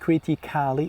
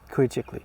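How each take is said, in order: First: The ending is said with a full 'kali' vowel. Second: The ending is said as 'kli' without that vowel. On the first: The speaker calls it wrong. "It's not critically" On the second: The speaker calls it right. "Be careful. You will say"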